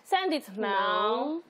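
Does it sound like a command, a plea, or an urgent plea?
plea. It sounds like a pleading request.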